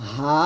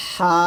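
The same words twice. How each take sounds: First: "হা" from the start of the throat; easy open "হা", no squeeze; normal, unpressed. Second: "হা" squeezed in the middle of the throat; mid-throat, pressed. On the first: Teacher recapping the second letter, relaxed "হা". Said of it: "গলার শুরু থেকে উচ্চারণ করব নর্মালভাবে". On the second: Teacher recapping for students, pressed mid-throat "হা". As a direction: narrow the throat on a long "হা". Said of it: "মাঝখান থেকে করব". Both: Shown as a demonstration.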